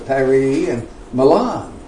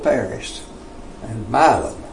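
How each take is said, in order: First: The names are pronounced the European way. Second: The names are pronounced the local Tennessee way. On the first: "it's Paris and Milan" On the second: "in Tennessee, it's just plain old Paris and Milan"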